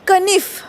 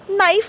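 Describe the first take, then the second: First: The word starts with a k sound. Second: The word starts without a k sound. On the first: This is how it was said long ago. "केचा उच्चार होत होता" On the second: This is how it is said today. "के शब्द silent म्हणतो"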